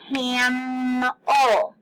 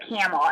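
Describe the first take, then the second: First: "camel" with a long hummed M; stretched-out consonant. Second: Said in the usual way. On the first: Shown as a demonstration. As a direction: hold the M in "camel", cammm-el. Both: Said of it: "we're gonna stretch that one out".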